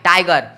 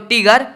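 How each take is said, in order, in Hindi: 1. पहले अक्षर में 'eye' स्वर है। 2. पहले अक्षर में 'ee' स्वर है। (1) "टाई, टाई, टाइगर" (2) "टीगर थोड़ी ना पढ़ते हो"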